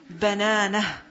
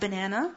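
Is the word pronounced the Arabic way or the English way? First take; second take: Arabic; English. First: It is pronounced as the Arabic word. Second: It is pronounced like the English fruit word. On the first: It means a fingertip. The speaker calls it right. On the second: It names the fruit. The speaker calls it wrong.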